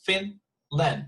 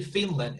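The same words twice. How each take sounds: First: "Finland" broken into two separate syllables; "Finland" syllable by syllable, first one stressed; split into syllables. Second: Said in the usual way. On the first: Shown as a demonstration. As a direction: say "Finland" as Fin, pause, land. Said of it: "it's just two syllables". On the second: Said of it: "because it's just two syllables".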